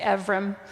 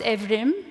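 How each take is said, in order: First: The name sounds almost like Ephraim. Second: The name is said with Turkish sounds. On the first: "I always tend to just say Evrim, almost like Ephraim" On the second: "pronounced Evrim in Turkish"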